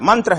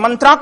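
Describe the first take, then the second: First: The word ends without a long final vowel. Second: The word ends with a long 'aa' vowel. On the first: The speaker calls it right. "मंत्र है" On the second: The speaker calls it wrong. "अंग्रेजी में इसे मंत्रा कहेंगे गलत हो जाएगा"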